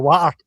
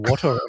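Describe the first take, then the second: First: It is said in a Glaswegian accent. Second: It is said in a posh accent.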